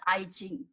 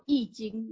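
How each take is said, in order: First: The first syllable sounds like "eye". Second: The first syllable sounds like "yee". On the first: The speaker calls it wrong. "not I Jing. They put an I" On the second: The speaker calls it right. "It's actually called Yi Jing"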